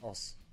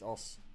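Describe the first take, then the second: Both takes have the same delivery.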